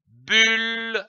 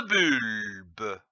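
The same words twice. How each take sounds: First: "bulbe" as "bul", a pause, then "be"; split into syllables. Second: Said in the usual way. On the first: Shown as a demonstration. Teacher joining syllables for learners, "bulbe" broken in two. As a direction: sound out "bulbe" in two separate parts. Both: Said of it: "L'association de ces syllabes".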